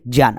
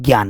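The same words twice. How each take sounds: First: It begins with a j sound. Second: It begins with a g sound. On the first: The speaker calls it right. "क्या ही है" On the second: The speaker calls it wrong. "आप क्या बोलते हो"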